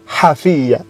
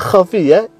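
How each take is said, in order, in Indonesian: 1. Diawali bunyi h yang lembut dan berhembus. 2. Diawali bunyi tenggorokan yang kasar dan serak. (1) "ini dibaca hafiyya" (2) "harusnya khafiyya"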